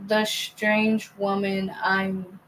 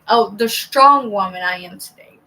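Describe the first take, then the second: First: "strange" read by mistake where "strong" was written; a misreading, "strange" for "strong"; misread word. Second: "strong" said clearly as a fix for the slip; the fixed reading, saying "strong"; corrected reading. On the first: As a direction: stumble and say "strange" instead of "strong". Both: Real, not acted. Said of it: "I read that wrong".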